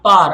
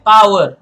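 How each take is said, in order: First: The word is squeezed into one syllable, like 'par'. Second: The word is said with two syllables, 'pow-er'. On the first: The speaker calls it wrong. "not par" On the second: The speaker calls it right. "It's better pronounced as power"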